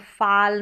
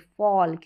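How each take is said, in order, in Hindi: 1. स्वर एक खुला 'ah' साउंड है। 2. स्वर एक गोल किया हुआ 'aw' साउंड है। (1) "इसको फाल नहीं पढ़ेंगे" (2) "क्योंकि ए का उच्चारण अ है"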